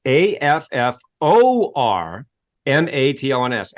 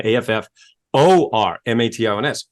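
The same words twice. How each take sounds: First: A F F O R M A T I O N S spelled slowly, each letter apart. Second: A F F O R M A T I O N S spelled letter by letter once more; spelled out again. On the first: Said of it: "So for everyone listening and watching". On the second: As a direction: repeat the spelling A F F O R M A T I O N S clearly. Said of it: "So again". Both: Shown as a demonstration.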